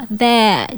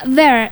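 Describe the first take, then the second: First: "there" as a long "theh", R silent; British non-rhotic. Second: "there" with the final R clearly pronounced; American rhotic R. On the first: Host demonstrating British accent, "there" without the R. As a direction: drop the R at the end of "there". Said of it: "kalau di British nyebutin kata itu". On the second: Co-host giving an American example, "there" with clear R. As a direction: end "there" on an audible American R. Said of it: "the letter R is clearly pronounced". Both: Shown as a demonstration.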